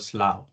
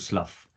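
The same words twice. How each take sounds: First: The ugh ending is left silent. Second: The ugh ending is sounded out. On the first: The speaker calls it right. "U G H is generally silent ... it is actually called Slough" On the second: The speaker calls it wrong. "I told my consultant I'm going to slough. And he laughed his way out"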